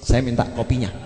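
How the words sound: It sounds like a demand, almost a robbery.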